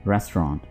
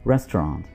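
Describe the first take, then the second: Both takes have the same delivery.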